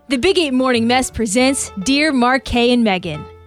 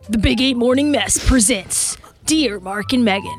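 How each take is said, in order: First: It sounds lighter and more lively, not scary. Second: It sounds scary, like a horror story.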